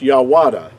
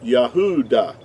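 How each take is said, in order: First: A W sound follows the first vowel. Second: A U vowel follows the first vowel. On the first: The speaker calls it wrong. "It will not it would not be pronounced Yawada" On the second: The speaker calls it right. "It would have to be pronounced Yah"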